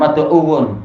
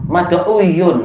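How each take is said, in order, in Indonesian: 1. Konsonan di tengah adalah bunyi w. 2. Konsonan di tengah adalah bunyi y. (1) "bibir kita senang bilang mad'uwun" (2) "itu malah susah sekali"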